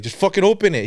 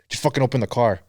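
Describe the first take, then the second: First: Higher-pitched, exasperated imitation; retold pissed demand. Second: Understated annoyance, close to usual voice; mildly irritated order, retold without raising it; retold curt irritation. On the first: Pissed friend insisting the car be opened, exasperated. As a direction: repeat the order with pitch jumping up. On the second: Pissed friend wanting the car opened, understated irritation. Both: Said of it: "He was pissed, dude".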